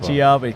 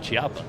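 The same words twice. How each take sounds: First: The name begins with a 'k' sound. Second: The name begins with a 'ch' sound. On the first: The speaker calls it right. "like Q. ... Kia" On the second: The speaker calls it wrong. "I always thought it was"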